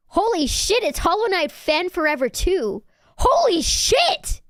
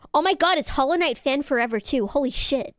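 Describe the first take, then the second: First: High, loud fangirl burst; over-excited. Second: Mildly excited, quick burst; pleasantly surprised to see a fan; excited greeting. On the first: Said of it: "Sorry, I got so excited". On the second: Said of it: "I got so excited". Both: Real, not acted.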